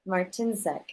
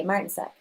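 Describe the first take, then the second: First: Martinzak with the stress on TIN; corrected name stress. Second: Martinsek with the stress on the first syllable; mistaken name stress. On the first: Shown as a demonstration. Chair repeating member's correction, Martinzak stressed on TIN. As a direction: move the emphasis to the middle, mar-TIN-zak. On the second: Real, not acted. Chair calling the roll, Martinsek stressed on MAR. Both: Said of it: "the emphasis on the wrong syllable".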